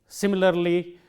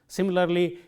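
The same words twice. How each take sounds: No difference in how they are said.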